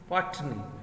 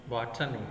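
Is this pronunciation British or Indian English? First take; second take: British; Indian. First: It is said with a standard British accent. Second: It is said with an Indian English accent. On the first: "R P or standard pronunciation is" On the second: "we pro Indian pronounce in Indian English as"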